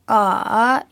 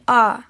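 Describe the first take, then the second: First: The syllable is said in the dipping third tone. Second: The syllable is said in the falling fourth tone. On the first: "третьим" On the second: "четвертым"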